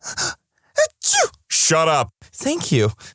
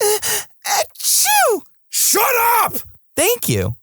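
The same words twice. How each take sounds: First: It is said in a milder tone. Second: It is said in a more aggressive tone.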